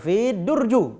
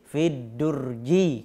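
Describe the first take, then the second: First: The noun ends with an -u sound. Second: The noun ends with an -i sound. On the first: The speaker calls it wrong. "atau fi durju" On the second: The speaker calls it right. "tapi fi durji kalau dia beralif lam"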